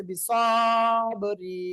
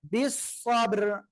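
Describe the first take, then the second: First: Slow বিসবরি with an added vowel after ব; wrong reading imitated. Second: বিসবর very slow, ending on a still র; correct pause form. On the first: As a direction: drag out বিসবরি as the students' mistake. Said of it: "এই দুইটার একটাও সঠিক নয়". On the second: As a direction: draw বিসবর out, no vowel after র. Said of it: "এইটাকে আমরা কি পড়বো". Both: Shown as a demonstration.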